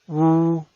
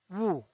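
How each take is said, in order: First: The pitch stays high and level. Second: The pitch falls from high to low. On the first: "El primer tono es alto y sostenido" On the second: "El cuarto tono es un tono bajado"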